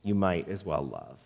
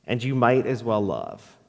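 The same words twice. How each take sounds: First: Much softer and lower, dying away; fading repetition. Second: Said in the usual way. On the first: Acted. Pastor closing the poem, fading to near silence. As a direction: let the last repeat fade to almost nothing. Repeated closing line, faded.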